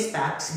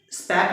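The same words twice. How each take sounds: First: स्पेक्स ending in a ks sound; स्पेक्स, final s added after the k; form with final S. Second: स्पेक ending on k, no final s; स्पेक with the final s left off; wrong form without S. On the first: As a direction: say स्पेक्स with the closing s. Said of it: "स्पेक्स बोलेंगे sir". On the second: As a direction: say स्पेक higher and louder, stopping on the k. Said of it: "नहीं बोलेंगे". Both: Shown as a demonstration.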